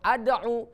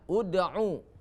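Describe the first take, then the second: First: The word begins with an 'a' vowel. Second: The word begins with a 'u' vowel. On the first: The speaker calls it wrong. "atau ad'u" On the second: The speaker calls it right. "hamzah itu diberi baris dhammah"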